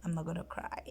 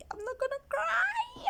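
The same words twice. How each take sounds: First: Said in the usual way. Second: Fighting tears and losing; holding back tears. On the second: Real, not acted. Recalling hearing her baby's first cry, voice breaking into tears. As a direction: voice cracking high into a real sob.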